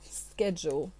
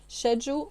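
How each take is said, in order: First: The word begins with an 'sk' sound. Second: The word begins with an 'sh' sound. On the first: "or is it sk?" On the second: "Is it sh"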